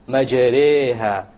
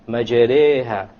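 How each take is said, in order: The two takes are said the same way.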